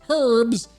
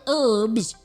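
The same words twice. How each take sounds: First: It is said British style, h pronounced. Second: It is said with an American silent h.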